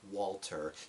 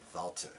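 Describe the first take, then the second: First: The name begins with a W sound. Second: The name begins with a V sound. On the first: The speaker calls it wrong. "not that W sound, not Walter" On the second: The speaker calls it right. "you say it with that V sound"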